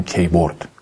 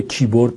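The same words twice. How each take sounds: First: کیبورد with "kay" as the first syllable; تلفظ غلط keyboard. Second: کیبورد with "kee" as the first syllable; تلفظ درست keyboard. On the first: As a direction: say کیبورد as "KEY-bord" rhyming with day-bord. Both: Shown as a demonstration.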